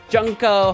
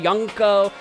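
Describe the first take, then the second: First: The name starts with a J sound. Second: The name starts with a Y sound. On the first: "In English, Junko" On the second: "in some languages it makes the Y sound"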